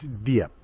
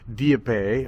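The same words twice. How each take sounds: First: The word ends on the P sound. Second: A vowel sound follows the final P. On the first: The speaker calls it right. "but it's Dieppe. They just don't pronounce that last E" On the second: The speaker calls it wrong. "I always want to go Dieppe"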